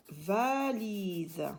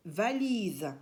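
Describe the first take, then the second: First: "Valise" drawn out slowly, vowels held long; sound stretched out. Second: Said in the usual way. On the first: Shown as a demonstration. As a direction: stretch both syllables of "Valise" so the I rings. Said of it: "C'est là où j'entends I". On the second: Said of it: "où on entend le son I".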